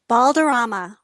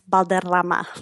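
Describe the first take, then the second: First: The R sounds are plain, not rolled. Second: The R sounds are rolled.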